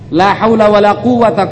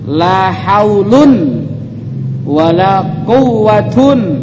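First: The nouns end with a short -a sound. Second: The nouns end with an -un sound. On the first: The nouns take the fixed, indeclinable reading. "Yang pertama dibaca mabni" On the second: The nouns take the nominative case reading. "Boleh juga dibaca marfu"

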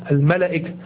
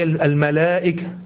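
First: The vowel after the l is short. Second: The vowel after the l is long. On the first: The speaker calls it wrong. "لو نطقناها حسب الكتابة الإملائية" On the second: The speaker calls it right. "لكن هي الملائكة"

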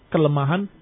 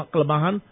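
The two takes are said the same way.

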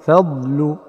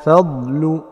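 No difference in how they are said.

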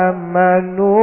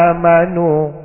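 No difference in how they are said.

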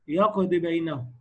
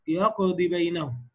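First: The final vowel of يقضي is clipped short. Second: The final vowel of يقضي is clipped short.

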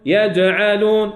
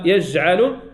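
First: The jeem is firm, with a light bouncing release. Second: The jeem is soft, with no bouncing release. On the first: The speaker calls it right. "يج يج يجعلون" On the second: The speaker calls it wrong. "اما يجعلون لا، هذه رخويه"

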